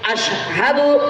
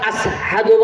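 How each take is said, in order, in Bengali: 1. মাঝের ব্যঞ্জনবর্ণটি একটি স্পষ্ট 'sh' ধ্বনি। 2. মাঝের ব্যঞ্জনবর্ণটি একটি সাধারণ 's' ধ্বনি। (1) "আশহাদু আল্লাহর জায়গাত" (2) "শিন উচ্চারণ করতে পারে না"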